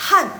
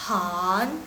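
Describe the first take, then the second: First: Han, falling fourth tone. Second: Han, rising second tone. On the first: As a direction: drop Han from top to bottom. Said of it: "nada keempat dia dari atas ke bawah". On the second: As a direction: lift Han upward like a question. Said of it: "nada kedua dia dari bawah ke atas". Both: Shown as a demonstration.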